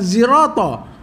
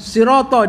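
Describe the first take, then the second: First: The word begins with a z sound. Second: The word begins with an s sound. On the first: This is another accepted reading. "dia baca dengan zirata" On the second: This is the usual reading. "Dia tak baca dengan sirata"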